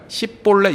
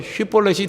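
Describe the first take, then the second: First: The word begins with an s sound. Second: The word begins with a sh sound. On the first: The speaker is killed. The speaker calls it wrong. "에브라임 사람들은 휘볼렛을 발음을 못하는가 봐요" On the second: The speaker is spared. The speaker calls it right. "휘볼렛이라고 발음하라"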